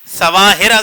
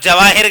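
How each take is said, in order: First: The word begins with an s sound. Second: The word begins with a j sound. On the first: "सीन से कोई लफ्ज कहना है" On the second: "सीन के बजाय जीम से कहेंगे"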